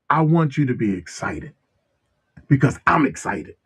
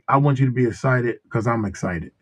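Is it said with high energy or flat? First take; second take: high energy; flat. First: It is said with exaggerated, excited energy. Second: It is said flatly, with little energy.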